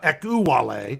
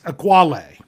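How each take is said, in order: First: The name is said with four syllables. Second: The name is said with three syllables. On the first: The speaker calls it wrong. "I've been saying four syllables" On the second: The speaker calls it right. "They have it as three"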